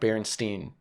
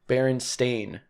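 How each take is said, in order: First: The last syllable rhymes with 'fine'. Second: The last syllable rhymes with 'rain'. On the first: The speaker calls it wrong. "not Berenstein" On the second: The speaker calls it right. "Berenstain, not Berenstein"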